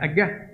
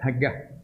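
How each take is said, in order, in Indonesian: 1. Kata itu langsung diawali vokal. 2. Kata itu diawali bunyi h. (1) "Ada cakap agas" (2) "Ada cakap hagah"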